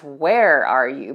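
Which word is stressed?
where. The stress falls on the word where.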